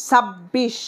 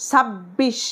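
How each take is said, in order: Both takes have the same delivery.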